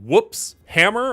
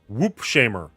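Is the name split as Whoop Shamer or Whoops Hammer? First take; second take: Whoops Hammer; Whoop Shamer. First: The s joins the first part: whoops, hammer. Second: The s starts the second part: whoop, shamer. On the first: "Is it Whoops Hammer" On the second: "I don't know what you'd be shaming somebody about their whoop for"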